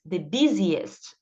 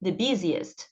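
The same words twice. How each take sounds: First: The busiest drawn out slowly, each syllable clear; teacher models the busiest slowly for students to copy; slow model pronunciation. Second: Said in the usual way. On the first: Shown as a demonstration. Teacher drilling the class, saying the busiest slowly. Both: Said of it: "Então, bus".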